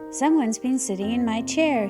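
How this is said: Daddy Bear's deep gruff growling voice.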